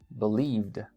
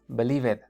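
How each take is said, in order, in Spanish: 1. El final es un sonido d simple. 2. El final se pronuncia como una sílaba extra. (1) "El pasado sería believed" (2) "no es believed"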